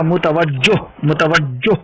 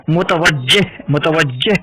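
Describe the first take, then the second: First: मुतवज्जो ending in o, the wrong form; wrong pronunciation. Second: मुतवज्जिह ending in a short e-like sound, rising; correct pronunciation. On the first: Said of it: "ये गलत लफ्ज़ है". (ग़लत उच्चारण मुतवज्जो) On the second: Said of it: "ये सही लफ्ज़ है". (सही उच्चारण मुतवज्जिह) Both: Shown as a demonstration.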